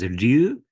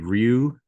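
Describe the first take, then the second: First: The name is said with Japanese pronunciation. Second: The name is said with English pronunciation. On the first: "the Japanese pronunciation is Ryu" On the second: "the closest acceptable sort of English language pronunciation would be Ryu"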